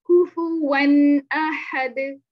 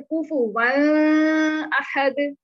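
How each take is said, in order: First: कुफुवन अहद very slow and louder, the न clear and the nasal kept short; correct izhar. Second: कुफुवन अहद drawn out slowly as the wrong take with a long nasal ghunna; wrong reading. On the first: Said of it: "हमने क्या पढ़ना है?". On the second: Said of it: "ये हम नहीं पढ़ सकते". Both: Shown as a demonstration.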